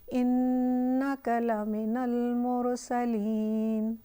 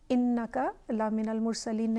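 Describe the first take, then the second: First: The double n sound is held long. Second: The double n sound is clipped short. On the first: The speaker calls it right. "इन्नका थोड़ा पॉज देंगे नून के ऊपर" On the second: The speaker calls it wrong. "नहीं कहेंगे"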